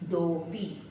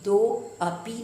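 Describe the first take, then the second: First: The 'a' is dropped and 'do' is stressed. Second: The 'a' after 'do' is pronounced separately. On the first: The speaker calls it right. "आगे वाला जो अक्षर होता है उसमें जोर पड़ता है" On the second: The speaker calls it wrong. "दो अपी नहीं"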